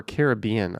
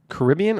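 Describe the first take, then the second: First: Caribbean as kar-ih-BEE-un; stress on third syllable. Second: Caribbean as kuh-RIB-ee-un; stress on second syllable. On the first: Streamer offering viewers the other option, Caribbean as kar-ih-BEE-un. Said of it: "I always say Caribbean". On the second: Streamer asking viewers how they say it, Caribbean as kuh-RIB-ee-un. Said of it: "Do you say". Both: Shown as a demonstration.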